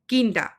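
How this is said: It is said with a statement tune. The speaker is stating something. "that is a statement"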